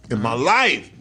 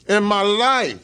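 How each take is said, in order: First: Said in the usual way. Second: In my life, louder and higher, stress on life; much higher, louder emphatic repeat. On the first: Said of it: "repeated for emphasis". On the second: Shown as a demonstration. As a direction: repeat it big, hammer life. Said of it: "repeated with emphasis".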